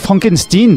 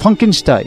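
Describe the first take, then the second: First: The name has an unusual, altered pronunciation. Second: The name has its ordinary pronunciation. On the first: It follows the grandson's own preferred pronunciation. "Oui, Frankenstein donc" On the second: It names the grandfather, who keeps the ordinary name. "Ah non, lui j'ai le droit"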